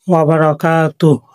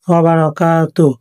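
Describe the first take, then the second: Both takes have the same delivery.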